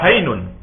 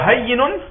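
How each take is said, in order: First: The y sound is single and short. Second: The y sound is doubled and held longer. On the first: "sans le tajid sur le yé" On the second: "avec le tajid sur le yé"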